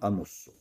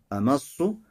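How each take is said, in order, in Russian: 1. Гласный после м — u. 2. Гласный после м — не u. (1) "что у нас с ламмой. В настоящем времени" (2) "Это первый вариант"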